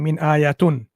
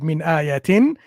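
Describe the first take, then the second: First: The last word ends with the sound 'un'. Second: The last word ends with the sound 'in'. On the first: The speaker calls it wrong. "He's reading min ayatun. ... the kasratan into dhammatan" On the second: The speaker calls it right. "clearly he didn't read min ayatin"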